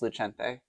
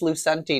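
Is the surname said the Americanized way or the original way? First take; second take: original; Americanized. First: The surname is said in its original form. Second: The surname is said in its Americanized form. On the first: This is how the family name was before immigration. "once upon a time it was Lucente" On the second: The name was changed to sound more American. "it's Lucenti now"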